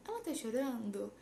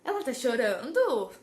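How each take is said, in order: First: "Ela tá chorando?" softer, with little pitch movement; understated question intonation. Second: "Ela tá chorando?" with a big rise and fall on "chorando"; louder, swooping question tune on "Ela tá chorando?"; exaggerated question intonation. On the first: Teacher modelling the right tune for students, "Ela tá chorando?" soft and level. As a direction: ask "Ela tá chorando?" evenly, without the big swoop. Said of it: "Não, vai ser tipo". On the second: Teacher showing the intonation English won't have, "Ela tá chorando?" overdone, swooping. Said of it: "essa entonação".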